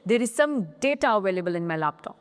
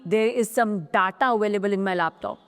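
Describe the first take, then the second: First: Data starts with an ay vowel. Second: Data starts with an ah vowel. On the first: The speaker calls it right. "जो पहला ए है वो ए की sound लाता है" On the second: The speaker calls it wrong. "ना कि"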